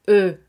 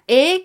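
First: The letter is named with French pronunciation. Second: The letter is named with Spanish pronunciation. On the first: "que se convierte en E" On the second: "la letra E"

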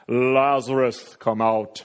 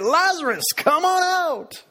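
First: It is called out loudly and solemnly. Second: It is called out in a showy announcer style. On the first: It is like a grand movie moment. "Jesus called in a loud voice" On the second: It is like calling up a game show contestant. "Or maybe it's like Price is Right"

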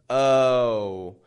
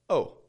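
First: The vowel is slow and drawn out. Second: The vowel is short and quick. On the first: "instead of going" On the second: "you'll be able to make a quicker kind of"

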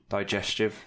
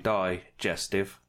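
First: The word is said quickly. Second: The word is said slowly. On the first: "Say it quickly" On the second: "I can say it slowly"

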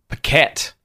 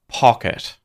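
First: The stress falls on the second syllable. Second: The stress falls on the first syllable. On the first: The speaker calls it wrong. "Is it pocket or pocket?" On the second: The speaker calls it right. "It's the second. Pocket, the first syllable"

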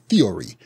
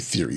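First: Every sound in the word is hit hard. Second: The word is said relaxed, with reduced sounds. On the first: This is how it is said in Nigeria. "We hit that E and O and R and Y, theory, you know, hard" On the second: This is not how it is said in Nigeria. "you don't say theory"

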